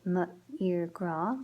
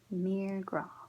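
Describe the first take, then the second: First: The M is sounded apart from the vowel. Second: The M runs straight into the vowel. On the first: The speaker calls it wrong. "we can't say M, ir, gra, because then there's like two vowels together and it sounds uncomfortable" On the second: The speaker calls it right. "so we just use an apostrophe"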